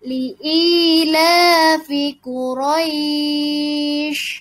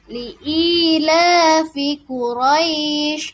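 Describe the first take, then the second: First: The vowel before the end is held longest. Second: The vowel before the end is held briefly. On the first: "Atau enam harokat. Dipanjangkan lagi boleh" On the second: "Boleh dua harokat"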